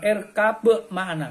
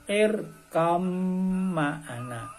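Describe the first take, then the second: First: The b is pronounced separately before ma'ana. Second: The b merges into the following m sound. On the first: The speaker calls it wrong. "Ora kena diwaca irkab ma'ana, enggak boleh" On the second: The speaker calls it right. "Bacanya yang benar adalah irkam ma'ana"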